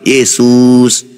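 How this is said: The name is shouted loudly from afar. Even calling loudly may not be heard. "Itu saja kita teriak belum tentu dia dengar"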